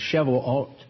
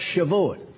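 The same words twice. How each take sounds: First: The word is given its Hebrew pronunciation. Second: The word is given its Yiddish pronunciation. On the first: "it's Shavuot in Hebrew" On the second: "that's the Yiddish"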